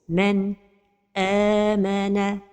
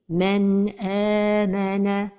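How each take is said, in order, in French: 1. La voix s'arrête brièvement juste après le n. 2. Le n se fond doucement dans le son suivant. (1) "c'est la pause" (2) "la prononciation correcte est"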